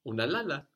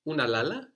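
First: The voice falls at the end. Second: The voice rises at the end. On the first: It is a statement: you are sleeping. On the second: It asks whether you are sleeping.

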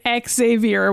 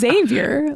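First: The name is said with three syllables. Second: The name is said with two syllables. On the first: "which is three syllables" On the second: "having two syllables"

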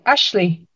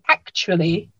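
First: The word is squeezed into two quick syllables. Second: Every syllable of the word is pronounced clearly. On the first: "in fast speech, it can sound like Ashley" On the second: "if you say it carefully, it sounds like actually"

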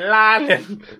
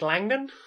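First: The name is said in a strong London accent. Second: The name is said plainly, with no London accent.

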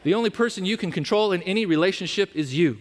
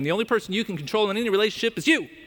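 First: It is said slowly. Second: It is said fast.

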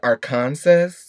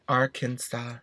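First: The final s sound is pronounced. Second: The final s sound is silent. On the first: The speaker calls it wrong. "that's how you say it phonetically" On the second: The speaker calls it right. "somebody was like, it's Arkansas"

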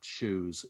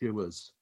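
First: The vowel is one single smooth sound. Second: The vowel is split into two sounds. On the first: "It seems as though there is just the one sound to that"

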